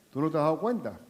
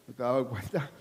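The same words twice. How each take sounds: First: Said in the usual way. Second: Teasing the congregation with a chuckle; laughing repeat. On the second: Shown as a demonstration. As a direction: laugh it out under your breath.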